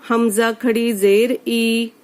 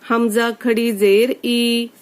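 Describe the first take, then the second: Both takes have the same delivery.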